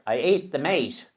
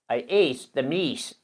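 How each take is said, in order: First: The last word has an 'ay' vowel, like 'mate'. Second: The last word has an 'ee' vowel, like 'meet'. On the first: This is the original old local wording. The speaker calls it right. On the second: This is the modern wording used in the book. The speaker calls it wrong.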